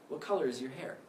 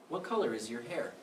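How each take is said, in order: Both takes have the same delivery.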